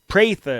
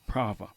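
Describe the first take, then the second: First: The first vowel is a long A, like pray. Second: The first vowel is not a long A sound. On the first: The speaker calls it right. "like you pray" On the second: The speaker calls it wrong. "I was totally wrong"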